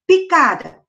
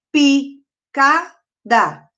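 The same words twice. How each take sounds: First: Said in the usual way. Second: "picada" very slowly in three beats, pi, ca, da; long pauses between each syllable of "picada"; split into syllables. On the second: Shown as a demonstration. Teacher counting syllables for pupils, "picada" split in three. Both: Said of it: "dividir essas palavras em sílabas".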